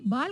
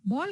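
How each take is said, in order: First: बाल said with a plain long open aa, not a rounded o; long aa in baal. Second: बॉल said with the rounded English ऑ vowel, like ball; open o in ball. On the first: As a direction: contrast it: बाल with a wide aa. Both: Shown as a demonstration. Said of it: "अ और आ ध्वनि में व्यापक अंतर होता है".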